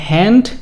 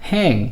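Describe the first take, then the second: First: The syllable ends with a d sound. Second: The syllable ends with an ng sound. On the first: The speaker calls it wrong. "হ্যান্ড না বলে" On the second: The speaker calls it right. "বলবো হ্যাং"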